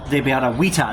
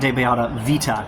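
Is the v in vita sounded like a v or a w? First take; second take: w; v. First: The v in vita sounds like a w. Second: The v in vita sounds like a v. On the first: The speaker calls it right. "using it as a W, not a V sound" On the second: The speaker calls it wrong.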